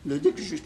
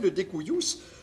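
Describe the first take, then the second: First: The cu is said with French sounds, kujus. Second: The cu is said like koo-yoos, Latin style.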